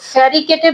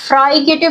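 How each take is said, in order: First: An extra vowel splits the opening 'fr' sound. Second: The first syllable sounds like 'fry'. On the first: "फेरिकेटिव भी इसको pronounce नहीं करना" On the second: "अब ये फ्राइकेटिव भी इसको प्रोनाउंस नहीं करना"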